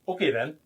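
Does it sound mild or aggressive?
mild. It is said in a mild, plain tone.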